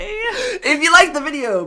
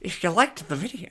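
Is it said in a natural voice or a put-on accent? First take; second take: put-on accent; natural voice. First: It is said in a put-on, fake-Irish accent. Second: It is said in her natural voice.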